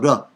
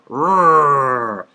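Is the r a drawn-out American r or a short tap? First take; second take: tap; American r. First: The r is a short, clicked tap. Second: The r is a long, drawn-out American sound. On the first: "a more uh, European kind of click" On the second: "I'm from Chicago, and my R's tend to sound like I'm like rrr"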